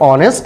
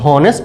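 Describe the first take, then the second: First: The word begins directly with a vowel sound. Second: The word begins with an audible h sound. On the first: The speaker calls it right. "अब जो ऑनेस्ट है" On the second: The speaker calls it wrong. "ये हॉनेस्ट नहीं"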